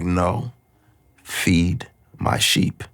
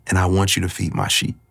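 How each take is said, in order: First: Slow, softer tender reply; gentle reassurance. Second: Said in the usual way. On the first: Retold or imitated. God answering his despair, slow soft tender voice. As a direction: ease it out slowly, gently insisting.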